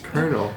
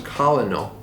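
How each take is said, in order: First: It is said with an R sound, like kernel. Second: It is said as spelled, without an R. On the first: The speaker calls it right. "you pronounce it with an R" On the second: The speaker calls it wrong. "I thought it was colonel. So that's how I'd always say it"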